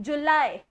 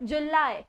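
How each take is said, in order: No difference in how they are said.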